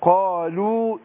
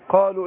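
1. يبقى حرف المد الأخير بطوله الكامل. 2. يُختصر حرف المد الأخير إلى حركة قصيرة. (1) "يعني قالوا انما كده" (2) "انت ما اديتيش الايه يعني حذفت الواو"

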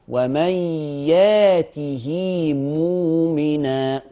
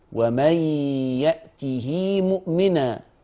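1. الهمزة في الفعل تُحذف. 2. الهمزة في الفعل تُنطق كاملة. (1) "طب وورش" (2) "طبعا بتحقيق الهمزة ده حفص"

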